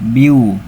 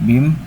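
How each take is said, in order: First: The n merges into a nasalized w sound. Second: The syllable ends with a clear n sound. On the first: The speaker calls it right. "langsung ke biu sambil berdengung" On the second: The speaker calls it wrong. "tidak lagi dibaca bim"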